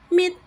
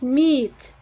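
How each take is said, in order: First: The vowel is said short. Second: The vowel is said long. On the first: The speaker calls it wrong. "you make a short sound with this colon at the end ... that would be wrong" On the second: The speaker calls it right. "It should be meat"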